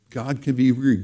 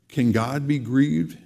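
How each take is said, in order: First: Falling statement, weight on be; firm statement. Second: Rising question on grieved; asking question. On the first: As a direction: answer it, drop the end flat. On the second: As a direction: ask it, lift the end of grieved. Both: Shown as a demonstration.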